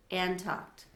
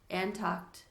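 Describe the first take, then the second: No difference in how they are said.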